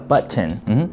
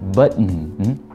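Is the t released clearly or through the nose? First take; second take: clearly; nose. First: The t is clearly released before the ending. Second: The t is weakened and released through the nose. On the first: "물론 T 발음 할 수 있어요" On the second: "T 발음이 약화가 돼서 button, button 이렇게 콧소리 낼 수 있다"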